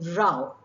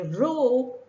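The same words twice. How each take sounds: First: The vowel sounds like the one in cow. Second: The vowel sounds like the one in tow. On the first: It means a quarrel. "When you refer to a quarrel, it rhymes with cow" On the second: It means paddling a boat. "rhyming with tow"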